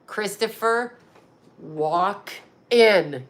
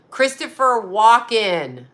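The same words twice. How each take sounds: First: "Christopher" then a long pause before "Walken"; "Christopher", beat, "Walken" as a joke; pun pause. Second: Said in the usual way. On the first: Shown as a demonstration. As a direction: split "Christopher Walken" in two to sell the pun. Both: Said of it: "Get it?".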